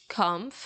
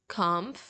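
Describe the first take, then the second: The two takes are said the same way.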